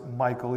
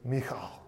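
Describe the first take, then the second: First: The middle consonant is a plain k sound. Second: The middle consonant is a throaty back sound. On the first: The speaker calls it wrong. "we usually pronounce it Michal, even though it's not spelled like Michael" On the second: The speaker calls it right. "kind of with that back of your throat kind of sound"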